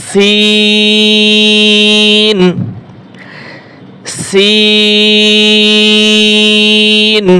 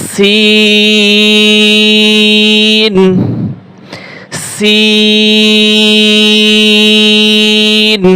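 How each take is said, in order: The two takes are said the same way.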